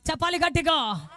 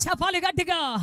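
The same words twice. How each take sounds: The two takes are said the same way.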